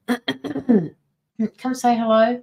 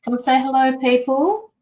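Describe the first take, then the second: First: Sing-song slow invite to the chat; drawn-out greeting. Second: Said in the usual way. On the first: Acted. Streamer calling viewers to say hello, very slow and drawn out. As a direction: stretch every word of the call, very slow.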